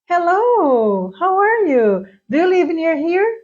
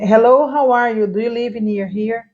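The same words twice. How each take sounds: First: The intonation is natural and lively. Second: The intonation is flat and robotic. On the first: It sounds like natural speech. The speaker calls it right. "Para você notar que a entonação tá igual" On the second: It sounds memorized. The speaker calls it wrong. "Senão fica assim, ó"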